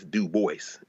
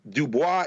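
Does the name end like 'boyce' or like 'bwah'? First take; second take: boyce; bwah. First: The name ends with a 'boyss' sound. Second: The name ends with a 'bwah' sound. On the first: This is how the bearer pronounced his own name. "the way I pronounce my name is D O O dash B O I S S" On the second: This is the foreign-style pronunciation of the name. "is the Latin pronunciation"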